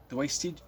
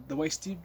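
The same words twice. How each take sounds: The two takes are said the same way.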